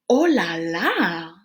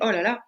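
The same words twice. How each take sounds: First: It is said in a drawn-out, exaggerated way. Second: It is said plainly, as mild shock. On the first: It can suggest something sexy or risky. "like when you exaggerate it" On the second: Something is surprising or crazy. "just a way of being uh, shocked about something"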